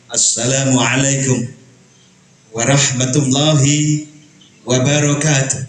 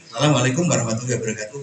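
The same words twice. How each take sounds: First: The greeting is said earnestly, with weight. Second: The greeting is said casually, without weight. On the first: The greeting carries something important. The speaker calls it right. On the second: The greeting is treated as trivial. The speaker calls it wrong. "Ini berarti remeh-temeh"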